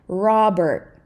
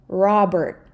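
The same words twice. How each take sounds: No difference in how they are said.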